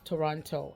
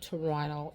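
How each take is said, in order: First: The second t is clearly pronounced. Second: The second t is dropped. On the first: The speaker calls it right. "that's how it's spelled" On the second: The speaker calls it wrong. "it's not Toronto"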